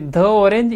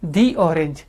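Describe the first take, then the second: First: 'The' is said with a short 'thuh' vowel. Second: 'The' is said with a long 'thee' vowel. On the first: The speaker calls it wrong. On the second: The speaker calls it right.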